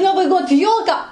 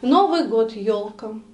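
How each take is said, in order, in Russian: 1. Сказано с восторгом и воодушевлением. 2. Сказано ровно, безразлично. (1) "ах!" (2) "Ну и что?"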